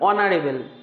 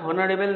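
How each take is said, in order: First: The word begins with a vowel sound. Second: The word begins with an h sound. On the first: The speaker calls it right. "এটার actual উচ্চারণ অনারেবল" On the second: The speaker calls it wrong. "কিন্তু এটা হনারেবল না"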